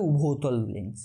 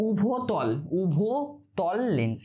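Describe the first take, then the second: First: Said in the usual way. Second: উভতল lens drawn out very slowly; syllable by syllable. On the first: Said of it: "এটাকে কি বলা হয়?". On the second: Shown as a demonstration. Teacher to students, slow dictation-style term drill. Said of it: "কি বলা হয় এটাকে?".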